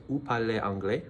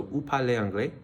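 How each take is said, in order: First: "Vous parlez anglais?" ending on a rise on "anglais"; teacher modelling the question rise. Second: "Vous parlez anglais?" with a clearer rise on "parlez" and "anglais"; teacher showing the question intonation. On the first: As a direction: lift "anglais" like a question mark. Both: Shown as a demonstration. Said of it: "a little inflection at the end".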